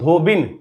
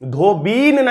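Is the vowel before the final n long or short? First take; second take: short; long. First: The vowel before the final n is short. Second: The vowel before the final n is long. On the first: The speaker calls it right. "धोबिन बोलेंगे हम लोग" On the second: The speaker calls it wrong. "धोबीन नहीं"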